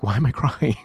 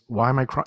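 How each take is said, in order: First: A puzzled question broken by a laugh; laughing through it. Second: Said in the usual way. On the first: Retold or imitated. Client surprised by their own tears, laughing. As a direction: laugh in the middle as the tears come. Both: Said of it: "they're like".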